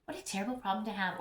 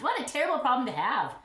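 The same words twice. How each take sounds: First: Fast, softer throwaway repeat of What; quick aside. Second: Mock-exasperated joke about too many flowers; mock complaint. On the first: Pretend. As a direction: toss it off under her breath. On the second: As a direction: play-act the grievance with a grin.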